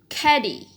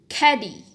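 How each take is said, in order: No difference in how they are said.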